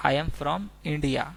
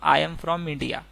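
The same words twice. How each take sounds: First: I am from India stretched out slowly, word by word; slow repeat. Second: Said in the usual way. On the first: Shown as a demonstration. Teacher repeating the English phrase slowly for students. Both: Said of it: "अगर हमें बोलना हो".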